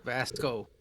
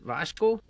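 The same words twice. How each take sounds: First: Vasco with a plain s, falling; corrected pronunciation. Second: Vasco said with a sh, like "Vashco"; guessed pronunciation. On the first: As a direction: repeat Vasco softer as VAS-koh, settling down. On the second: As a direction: ask Vasco tentatively with a sh in the middle. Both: Shown as a demonstration. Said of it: "how do you pronounce your name".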